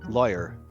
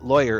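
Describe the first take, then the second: First: The first vowel sounds more like 'lie'. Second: The first vowel sounds more like 'law'. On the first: "Yours is just a little bit, a little bit more closer to saying liar" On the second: "I think I'm saying lawyer"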